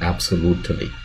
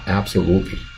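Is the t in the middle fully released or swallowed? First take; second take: released; swallowed. First: The middle t sound is fully released. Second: The middle t sound is swallowed, barely touched. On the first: The speaker calls it wrong. "不要发成absolutely" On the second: The speaker calls it right. "带一下过去就好了，蜻蜓点水"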